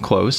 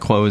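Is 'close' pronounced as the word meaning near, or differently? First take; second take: near; differently. First: Pronounced like the word meaning near. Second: Not pronounced like the word meaning near. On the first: The speaker calls it right. "Close as in proximity" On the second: The speaker calls it wrong. "not Close as in"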